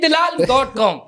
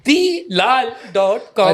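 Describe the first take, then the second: First: The first part is run together as dilal. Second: The first part is split as dee lal. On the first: The speaker calls it wrong. "हमारे पाकिस्तानी उमूमन गलती करते हैं, इसको फौरन पढ़ लेते हैं" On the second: The speaker calls it right. "ये दी लाल डॉट कॉम है"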